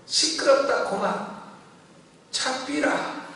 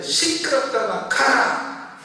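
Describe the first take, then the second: First: Higher-pitched Gyeongsang rebuke; Gyeongsang dialect. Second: Retold shouted rebuke. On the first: Retold or imitated. Woman rebukes Satan, imitated in Gyeongsang dialect. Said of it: "경상도 말로". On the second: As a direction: shout it as if driving someone off. Retold rebuke to Satan's whisper.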